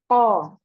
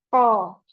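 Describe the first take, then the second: Both takes have the same delivery.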